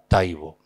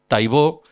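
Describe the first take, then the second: First: The stress is on the first syllable. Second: The stress is on the last syllable. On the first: This is the other branch of the family's place. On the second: This is one branch of the family's place.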